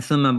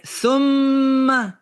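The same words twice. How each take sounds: First: Said in the usual way. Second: THUMMA with a long, high, held M; "thumma" stretched high on a humming M before the final A; drawn-out shadda. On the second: Shown as a demonstration. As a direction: hold the doubled M in "thumma" to show a delay. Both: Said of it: "You can hear in the shadda".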